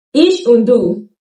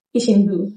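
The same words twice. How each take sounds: First: Und said with a clear d in Ich und du; careful Ich und du; full form. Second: Und cut to un in ich und du; quick casual ich und du; reduced form. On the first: Teacher gives the full und. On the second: Teacher shows the spoken und. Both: Shown as a demonstration. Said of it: "und reduces to un".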